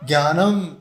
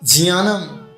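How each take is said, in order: First: The word begins with a 'gya' sound. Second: The word begins with a 'jiya' sound. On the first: The speaker calls it wrong. "हमें आज तक क्या पढ़ा गया? ज्ञानम, ज्ञानम शब्द नहीं है" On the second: The speaker calls it right. "ज और या से मिलकर के बनता है जिया"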